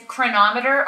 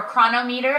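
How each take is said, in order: First: Chronometer said as kruh-NOM-uh-ter; stress on second syllable. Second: Chronometer said as KRO-no-MEE-ter; alternative pronunciation. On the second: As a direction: split Chronometer into chrono plus meter. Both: Shown as a demonstration. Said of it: "however you choose to pronounce it".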